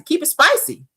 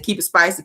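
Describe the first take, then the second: First: Spicy pushed higher with a lifted end; playful emphasis. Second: Said in the usual way. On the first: Shown as a demonstration. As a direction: lean into spicy with a rising tune.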